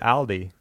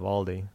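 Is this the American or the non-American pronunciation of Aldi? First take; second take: non-American; American. First: Aldi is pronounced the way other countries say it. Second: Aldi is pronounced the usual American way. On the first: The speaker calls it right. "in other countries, they actually pronounce it Aldi" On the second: The speaker calls it wrong. "instead of Aldi. We just mispronounce everything here in the U.S"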